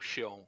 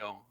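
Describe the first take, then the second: First: Xeon is said with a Brazilian Portuguese pronunciation. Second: Xeon is said with an English pronunciation. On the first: This is how people in Brazil say it. "everybody here in Brazil call Xeon" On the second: This is the English way of saying it. "instead of"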